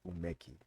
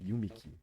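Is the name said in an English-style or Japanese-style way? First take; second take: Japanese-style; English-style. First: The name is said with Japanese-style sounds. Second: The name is said with English-style sounds. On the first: The speaker calls it right. "It's not that umeki, umeki" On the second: The speaker calls it wrong. "people would say it yumi, yumiki"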